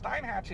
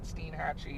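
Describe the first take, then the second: First: The name is said with a German-style pronunciation. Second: The name is said with the Florida local pronunciation. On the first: "is how you pronounce it in German" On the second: "if they pronounce it Steinhatchee in Florida"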